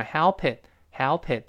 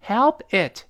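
First: "help it" run together as hel-pit; joined-up "help it"; linked "help it". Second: "Help it" as two distinct words; clearly part "Help" from "it", high and loud; unlinked "Help it"; separate "Help it". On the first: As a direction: carry the P onto "it", slowly. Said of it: "help跟it连读". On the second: Teacher says words separately before linking. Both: Shown as a demonstration.

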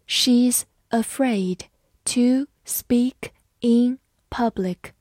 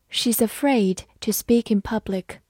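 First: Slow, each word spaced; slow reading. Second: Said in the usual way. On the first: Shown as a demonstration. Teacher reading slowly for students to follow. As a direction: read it slowly and clearly. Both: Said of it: "好，慢慢来读。".

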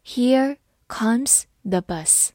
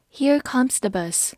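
First: Here comes the bus read slowly, word by word. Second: Said in the usual way. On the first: Shown as a demonstration. Teacher slowly reading the sentence to students, slow and clear. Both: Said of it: "我们慢慢来读".

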